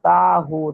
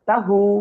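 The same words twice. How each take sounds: First: The first vowel is drawn out long. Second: The first vowel is kept short and quick. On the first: The speaker calls it wrong. "তাহলে তো তা তা টান হয়ে গেছে" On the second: The speaker calls it right. "একটু তাড়াহুড়া করেন"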